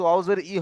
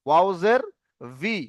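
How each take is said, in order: First: "ই" with no v sound before it; wrong bare vowel. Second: "ভি" begun with a v sound, not bare i; correct consonant v. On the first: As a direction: spell "ওয়াও জের", then only "ই". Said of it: "ই হবে না". (ব্যঞ্জন ছাড়া শুধু "ই") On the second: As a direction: spell "ওয়াও জের", then a clear "ভি". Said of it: "ওয়াও জের ই হবে না". ("ভি" ঠোঁটের ব্যঞ্জন দিয়ে) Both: Shown as a demonstration.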